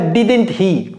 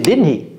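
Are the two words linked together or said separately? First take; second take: separately; linked. First: Each word is pronounced fully and separately. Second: The two words are reduced and linked together. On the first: The speaker calls it wrong. "ne dites pas didn't he" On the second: The speaker calls it right. "c'est didn't he"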